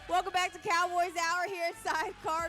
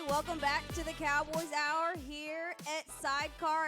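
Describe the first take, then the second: First: It is said loudly, with high energy. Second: It is said quietly, with low energy.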